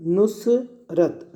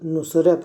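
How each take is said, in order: First: Nusrat slowly split as "nus... rat"; syllable by syllable. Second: Said in the usual way. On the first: Shown as a demonstration. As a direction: break Nusrat into two separate parts, nus and rat. Teacher sounds out word in parts.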